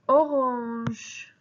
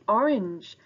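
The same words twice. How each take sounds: First: It is pronounced with French sounds. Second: It is pronounced with English sounds. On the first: "In French, we say orange" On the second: "our next color in English is orange"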